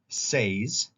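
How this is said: The vowel is long, rhyming with pays. This is the regular form used by these speakers. "conjugate say in the same way, in a regular way"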